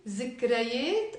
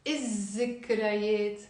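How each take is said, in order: First: الذكريات with the L sounded, il-zikrayet; the wrong option, article's L kept in الذكريات; lam pronounced. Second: الذكريات as iz-zikrayet, doubled Z; silent lam. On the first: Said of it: "I will not pronounce the lam". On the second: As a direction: drop the L and hold the Z in الذكريات. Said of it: "The second one". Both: Shown as a demonstration.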